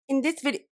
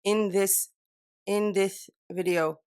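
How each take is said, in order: First: "this" said with a lisp, higher; accidental lisp. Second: "this" said carefully with a clean s; no lisp. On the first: Real, not acted. Vlogger flubs the intro, lisping "this". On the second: Shown as a demonstration. Vlogger retrying the intro, careful unlisped "this". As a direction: slowly practise "this" without lisping. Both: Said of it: "No lisp".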